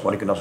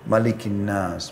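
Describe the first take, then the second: First: It is recited quickly, running phrases together. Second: It is recited slowly, with a stop after. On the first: What is read is not clear. The speaker calls it wrong. "dengan seperti orang terburu-buru" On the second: Each part is given its due. The speaker calls it right. "pelan-pelan ... berhenti"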